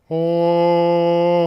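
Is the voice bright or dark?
dark. The voice has a darker, deeper timbre.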